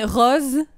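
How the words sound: It is said with a European French accent. "Tandis que moi, je dis jaune, rose"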